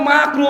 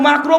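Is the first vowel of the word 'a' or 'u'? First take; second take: a; a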